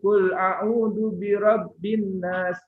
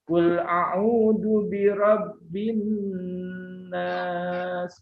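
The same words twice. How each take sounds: First: The doubled n is rushed through quickly. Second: The doubled n is held and lengthened. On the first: The speaker calls it wrong. "Jangan tergesa-gesa. Jangan" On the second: The speaker calls it right. "Tapi ditahan"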